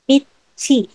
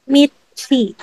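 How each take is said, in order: First: The consonant before the final vowel is 'ch'. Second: The consonant before the final vowel is 'ch'.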